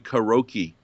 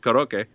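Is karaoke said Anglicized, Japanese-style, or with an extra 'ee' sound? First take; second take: Anglicized; Japanese-style. First: The word is said in English with no middle 'ee'. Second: The word is said with Japanese-style vowels. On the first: "which Americanized should be karaoke" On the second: "the Japanese pronunciation is karaoke"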